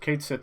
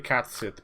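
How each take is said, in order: First: The name begins with a long 'Kate' sound. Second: The name begins with a short 'cat' sound. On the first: This is an acceptable alternative. "Kate Sit is, I think, is fine too" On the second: This is how Irish speakers say it. "We would say Catsit"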